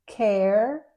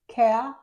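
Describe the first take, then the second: First: It is said in an American accent. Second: It is said in a British accent. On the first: "in American English" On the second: "but in British English"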